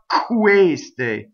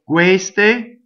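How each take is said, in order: First: The first K has a strong puff of air. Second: The first K has no puff of air. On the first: The speaker calls it wrong. "It's not queste with the Q of English" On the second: The speaker calls it right. "just to the point where it's unvoiced, but almost voiced"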